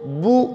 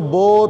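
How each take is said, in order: First: The vowel is a thin, rounded 'oo' sound. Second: The vowel is a thick, open 'oh' sound. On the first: The speaker calls it right. "मारूफ करके पढ़ना है, बारीक पढ़ना है" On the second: The speaker calls it wrong. "उसको मोटा नहीं पढ़ना, उसको बो तो सो नहीं पढ़ना"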